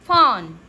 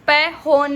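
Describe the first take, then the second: First: It begins with an f sound. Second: It begins with a separate p sound. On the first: The speaker calls it right. "इसको हम फॉन" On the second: The speaker calls it wrong. "इसको हम प होन नहीं बोलते हैं"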